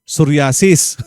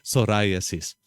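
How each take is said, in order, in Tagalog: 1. Binibigkas ito gamit ang mga tunog Tagalog. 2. Binibigkas ito gamit ang mga tunog Ingles. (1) "Sa Tagalog nga eh" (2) "Sa English"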